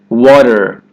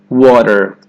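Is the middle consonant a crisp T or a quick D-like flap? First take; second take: flap; flap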